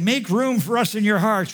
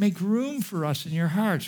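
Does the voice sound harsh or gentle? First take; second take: harsh; gentle. First: The tone sounds harsh and accusing. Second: The tone sounds gentle and pleading. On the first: He is condemning them. The speaker calls it wrong. "it's not like this. He's not saying" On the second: He does not want them to feel guilty. The speaker calls it right. "He's saying"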